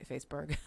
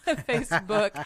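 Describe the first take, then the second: First: Said in the usual way. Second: Cracking up at your own stumble, higher and louder; laughing. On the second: Real, not acted. Host laughs at tripping over Facebook, laughing loudly. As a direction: laugh the word out, slower and louder.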